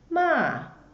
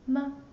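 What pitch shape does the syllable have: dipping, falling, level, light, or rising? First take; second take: falling; light. First: The pitch falls sharply from high to low. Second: The syllable is short and light, unstressed. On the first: "The fourth tone, the sound goes down" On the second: "the light tone"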